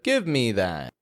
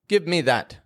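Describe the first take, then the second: First: The vowel in 'me' trails off gradually. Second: The vowel in 'me' stops short abruptly. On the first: The speaker calls it right. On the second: The speaker calls it wrong.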